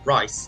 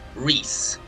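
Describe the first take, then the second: First: The vowel sounds like 'eye', as in rice. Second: The vowel sounds like 'ee', as in Reese. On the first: The speaker calls it right. "that's how you pronounce it" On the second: The speaker calls it wrong.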